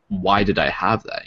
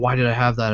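First: It sounds curious and inquisitive. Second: It sounds upset and complaining.

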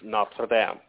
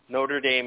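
First: It is said with a French pronunciation. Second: It is said with an American pronunciation. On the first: The speaker calls it right. "It's Notre Dame. And it means Our Lady" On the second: The speaker calls it wrong. "Americans pronounce things really weird, like Notre Dame. Notre Dame is not how you say that name"

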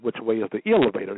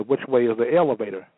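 First: Elevator begins with an 'il' sound. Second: Elevator begins with an 'el' sound. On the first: The speaker calls it wrong. "You don't say" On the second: The speaker calls it right. "you say"

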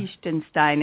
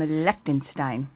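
First: It is said with the local German pronunciation. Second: It is said with a plain English pronunciation.

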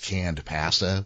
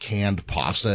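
First: It is said in a Canadian accent. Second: It is said in an American accent.

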